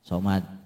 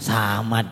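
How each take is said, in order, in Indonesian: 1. Vokal pertama itu bunyi gelap, seperti 'o'. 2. Vokal pertama itu 'a' terbuka yang polos.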